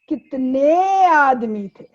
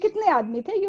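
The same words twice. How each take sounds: First: The word kitne is drawn out, sounding menacing. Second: The word kitne is said short and plain.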